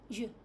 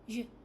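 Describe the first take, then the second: No difference in how they are said.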